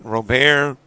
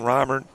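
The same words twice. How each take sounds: First: The name is said with a fancier, flashier pronunciation. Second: The name is said the ordinary, plain way. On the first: This version gives the name some style. "A little flair to it" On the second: This is the usual, dull version of the name. "because it's kind of boring"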